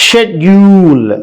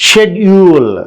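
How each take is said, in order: No difference in how they are said.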